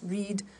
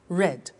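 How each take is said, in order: First: The word is said with a long 'ee' vowel. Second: The word is said with a short 'e' vowel. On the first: It is the present tense. "the pronunciation changes in the past tense" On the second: It is the past tense. "the pronunciation changes in the past tense"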